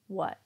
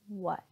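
First: The final T is cut off in the throat, unreleased. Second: The same.

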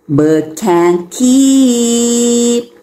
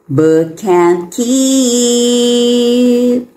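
No difference in how they are said.

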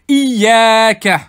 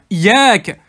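First: The y sound is doubled and held long. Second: The y sound is single and short. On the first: It is You alone that we worship. "j'exagère exprès, shadda sur le ya" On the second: It is your sun that we worship. "sans shadda sur le ya"

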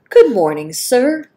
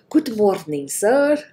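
First: It is said in the speaker's ordinary accent. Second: It is said in a put-on foreign accent.

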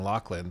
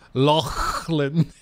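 First: The name is said plainly, in a normal accent. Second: The name is said in an exaggerated, stereotypical accent. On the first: The speaker calls it right. "instead of just like saying Lachlan" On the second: The speaker calls it wrong. "they went Lachlan"

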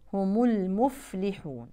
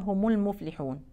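First: The f sound is clearly audible. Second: The f sound is barely audible. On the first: The speaker calls it right. "فننتبه لبيان صوت الفاء" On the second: The speaker calls it wrong. "البعض مش بيبينها"

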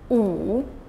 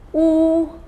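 First: The pitch dips low, then rises. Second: The pitch stays high and level.

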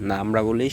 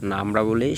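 No difference in how they are said.

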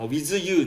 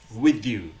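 First: The word 'with' ends in a buzzing z sound. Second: The word 'with' ends in a tongue-tip th sound. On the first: The speaker calls it wrong. "With you になっちゃうんですね。このWith you じゃないですね" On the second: The speaker calls it right. "TH を意識する"

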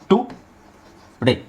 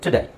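First: The first syllable has a full 'oo' vowel. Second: The first syllable has a weak 'uh' vowel. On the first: The speaker calls it wrong. "ಇದನ್ನು ನಾವು ಈ ಥರ ಹೇಳ್ಬೋದು ಟು ಡೇ" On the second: The speaker calls it right. "T ಆದಮೇಲೆ ಅ ಇದೆ"

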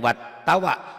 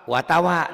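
First: The t sound is doubled and held. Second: The t sound is single and flat. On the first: The speaker calls it wrong. "jangan jangan jangan wat tawa" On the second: The speaker calls it right. "Watawa datar. Jangan ada pendobel"

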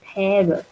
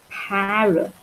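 First: It is said with an American accent. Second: It is said with a British accent.

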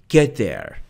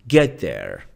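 The two takes are said the same way.

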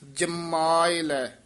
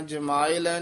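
First: The first syllable is tight and nasal. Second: The first syllable is loose without nasal stress. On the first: The speaker calls it right. "ਜਿੱਦੇ ਤੇ ਟਿੱਪੀ ਹੈਗੀ ਹੈ ਕੱਸ ਕੇ ਬੋਲਣਾ" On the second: The speaker calls it wrong. "ਜਮਾਏ ਲੈ ਨਹੀਂ ਕਹਿਣਾ"

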